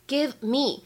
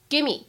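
First: The v sound is clearly pronounced. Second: The v sound is dropped and words merge. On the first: "开头的两个单词give me" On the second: "就这个摩擦音的感觉没太听得到了"

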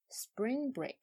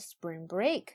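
First: The stress is on the first word. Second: The stress is on the second word. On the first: The speaker calls it right. "重音在前边一定要说spring break" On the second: The speaker calls it wrong. "不能spring break，这样就不行了"

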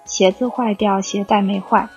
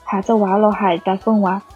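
First: It is said in standard Mandarin. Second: It is said in Jiangyin Wu dialect.

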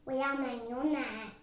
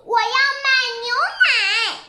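First: It is said in a small, quiet voice. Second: It is shouted in a loud voice.

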